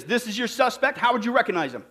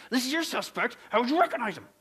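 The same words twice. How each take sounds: First: Said in the usual way. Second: Lightly voiced testy policeman. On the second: Policeman testing the third and final trainee, mildly testy. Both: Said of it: "he says in a real testy voice".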